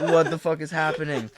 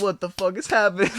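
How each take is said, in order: First: Laughing through the panicked line; half laughing at the memory; laughing retelling. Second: High, loud panicked outburst; retold freak-out. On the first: Retold or imitated. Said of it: "and I'm like". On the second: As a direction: blurt it out in alarmed disbelief. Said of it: "freaking out".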